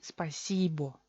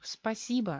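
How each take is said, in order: First: The final vowel is a full 'o' sound. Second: The final vowel is reduced to an 'a' sound. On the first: This is the official pronunciation. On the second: This is how it is said in everyday speech. "se convierte en A"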